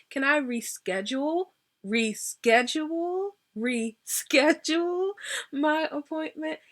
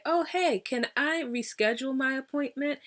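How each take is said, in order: First: Higher, drawn-out "reschedule", rising each time; emphatic RESCHEDULE. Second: Said in the usual way. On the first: Retold or imitated. Caller to scheduler who keeps canceling, "reschedule" stretched emphatically. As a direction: lean slowly and hard on every "reschedule". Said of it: "I will emphasize". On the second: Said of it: "when I say".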